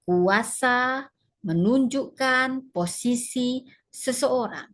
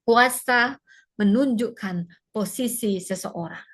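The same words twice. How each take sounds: First: The sentence is spoken slowly and deliberately. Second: The sentence is spoken at a normal pace.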